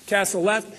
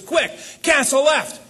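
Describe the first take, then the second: First: Said in the usual way. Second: Urgent order. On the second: Retold or imitated. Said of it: "He says".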